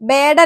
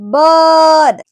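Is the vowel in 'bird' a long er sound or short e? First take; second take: short e; long er. First: The vowel is a short e-like sound. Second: The vowel is a long central er sound. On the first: The speaker calls it wrong. "ബേർഡ് അല്ല കേട്ടോ" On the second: The speaker calls it right. "എന്നാൽ ഇത് as in ബേർഡ്"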